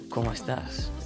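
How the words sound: It is said as a statement, falling.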